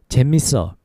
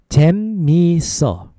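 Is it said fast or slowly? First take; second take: fast; slowly. First: It is said fast. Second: It is said slowly.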